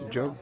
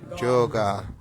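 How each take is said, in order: First: The word ends in a consonant, no final vowel. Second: The word ends with an added final a vowel. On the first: This is how it is said in India. "na Índia a gente chama de Jog" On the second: This is how it is said in the West. "no Ocidente as pessoas chamam de Yoga, com A no final"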